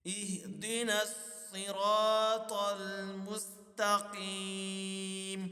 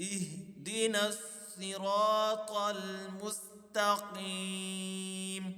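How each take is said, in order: Both takes have the same delivery.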